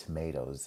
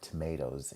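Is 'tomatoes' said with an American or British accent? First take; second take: American; American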